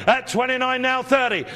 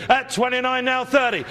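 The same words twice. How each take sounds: The two takes are said the same way.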